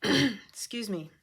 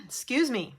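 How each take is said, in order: First: Slower hoarse apology; throat clearing. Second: Hoarse after clearing throat. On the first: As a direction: clear throat, then slowly. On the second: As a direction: clear the throat then speak. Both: Real, not acted. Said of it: "leftovers from yesterday".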